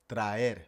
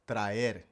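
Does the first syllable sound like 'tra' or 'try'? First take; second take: tra; tra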